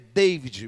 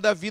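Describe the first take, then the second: First: The name ends with an audible D sound. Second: The name ends without a D sound. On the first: This is how it would be said in the United States. "Se fosse nos Estados Unidos, ele pronunciaria o D" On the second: This is how the speaker's own name is said. "mas o meu nome é Davi, não é David"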